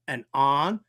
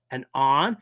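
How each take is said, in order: Both takes have the same delivery.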